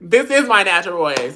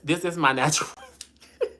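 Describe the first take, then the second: First: Louder, pressing each word of This is my natural voice; defiant reply to a viewer doubting her voice; firm insistence. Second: Laughing it off. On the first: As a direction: insist This is my natural voice is really yours. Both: Real, not acted. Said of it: "talk with your natural voice".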